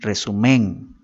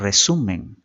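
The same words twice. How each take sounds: First: The stress is on the third syllable. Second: The stress is on the second syllable. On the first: The speaker calls it wrong. "ni resumen ... No suena correcto" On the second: The speaker calls it right. "decimos resumen"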